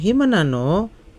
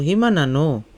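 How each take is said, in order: First: It is said with question intonation. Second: It is said with answering, statement intonation.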